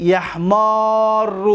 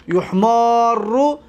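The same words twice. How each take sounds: First: A first in یحمار, then a long held aa and doubled r; active vowel pattern. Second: U first in یحمار, then a long held aa and doubled r; passive vowel pattern. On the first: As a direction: say یحمار very slowly as "yahmaarru". (تلفظ معلوم یحمار، کشیده: «یَحْمارُّ») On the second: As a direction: say یحمار very slowly as "yuhmaarru". (تلفظ مجهول یحمار، کشیده: «یُحْمارُّ») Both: Shown as a demonstration. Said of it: "اصل از چی گرفته گه؟".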